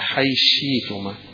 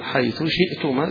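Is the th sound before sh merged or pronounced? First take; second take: merged; pronounced. First: The th merges into sh; no glottal stop. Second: The th is clear; the glottal stop is kept. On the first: "الإدغام مع الإبدال" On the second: "له الإظهار مع الهمز"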